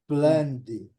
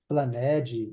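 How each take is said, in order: First: The -ed ending adds no extra syllable. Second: The -ed ending is sounded as an extra syllable. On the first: The speaker calls it right. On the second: The speaker calls it wrong.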